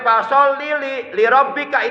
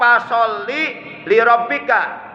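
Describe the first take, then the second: First: The syllable li is said twice. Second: The syllable li is said only once. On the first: The speaker calls it wrong. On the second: The speaker calls it right.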